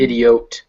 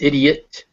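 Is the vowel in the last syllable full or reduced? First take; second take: full; reduced. First: The last syllable has a full vowel. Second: The last syllable has a reduced schwa vowel. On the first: The speaker calls it wrong. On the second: The speaker calls it right. "because they're schwas"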